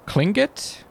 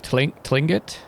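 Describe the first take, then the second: First: "Klingit" begun with a KL sound; heard pronunciation. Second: "Tlingit" begun with a TL sound; spelling pronunciation. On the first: Player puzzles over how it was pronounced, saying "Klingit" with KL. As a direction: say "Klingit" with a hard K before the L. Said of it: "It sounded like it was pronounced". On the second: Player tries the name as written, "Tlingit" with a TL. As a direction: say "Tlingit" with a T before the L, questioning. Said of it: "instead of". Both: Shown as a demonstration.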